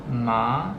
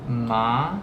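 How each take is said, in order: Both takes have the same delivery.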